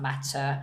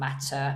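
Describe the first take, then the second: First: The T is hard and crisply released. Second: The T is hard and crisply released.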